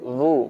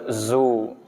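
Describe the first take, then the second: First: The consonant is a voiced th sound. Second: The consonant is a plain z sound. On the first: The speaker calls it right. "Huruf dza keluar di ujung gigi" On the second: The speaker calls it wrong. "bukan zu ... kalau bunyi zu berarti dia huruf zain"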